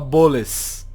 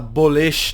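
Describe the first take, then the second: First: The word ends with an 's' sound. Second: The word ends with an 'sh' sound. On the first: The speaker calls it wrong. "ele fala Boles" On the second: The speaker calls it right. "ele não conseguia falar a letra Shin"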